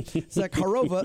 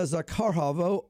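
First: Zakharova said cleanly as "ZACK-uh-roh-vuh", stress on the first syllable; corrected name. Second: Zakharova said as "zuh-kah-HAH-voh", with a stray h sound in the middle; stumbled name. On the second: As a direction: trip over the name Zakharova, adding an h in the middle. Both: Real, not acted. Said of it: "sorry, Zakharova".

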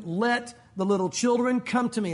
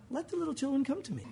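First: Steady firm command. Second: Soft, meek invitation; mild and quiet; soft gentle version. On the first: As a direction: say it like a stern order. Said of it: "I bet he said it in a firm voice". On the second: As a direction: say it mildly, not firm. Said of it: "I bet it wasn't". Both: Shown as a demonstration.

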